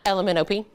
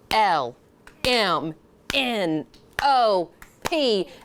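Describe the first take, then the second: First: The letters are run together as one word. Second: Each letter is said separately with pauses.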